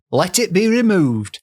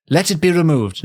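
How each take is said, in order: First: High, imploring mock-Yorkshire voice; theatrical Yorkshire plea; put-on Yorkshire accent. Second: Said in the usual way. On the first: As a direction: plead like a dying Yorkshirewoman, pitched up. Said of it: "she's from Yorkshire". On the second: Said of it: "No, wait, she's from Yorkshire".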